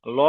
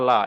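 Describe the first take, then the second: First: ল as a rounded, dark "lo"; full heavy L. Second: লা as an open, light "la"; thin light L. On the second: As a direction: say লা thin, with a clear "a". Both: Shown as a demonstration. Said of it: "পুর আর বারিক".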